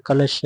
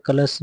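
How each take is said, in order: First: कलश ending in sh; correct pronunciation. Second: कलश ending in a plain s; wrong pronunciation. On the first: Teacher giving the correct form, sh-ending "kalash". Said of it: "कलश ऐसे सिटी वाला सा". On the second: Teacher showing the wrong form, s-ending "kalas". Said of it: "नहीं होता". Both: Shown as a demonstration.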